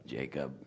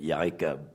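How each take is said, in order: First: "Jacob" said the English way with a soft J; English J sound. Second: "Jacob" said as "Yakob" with a Y sound; Hebrew Y sound. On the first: Contrasting the English name, says "Jacob" with a J. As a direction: give "Jacob" the usual English J. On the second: Explaining the Hebrew letter Yod, says "Jacob" with a Y. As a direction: start "Jacob" with a Y like in Yom. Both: Shown as a demonstration. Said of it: "It's not a J".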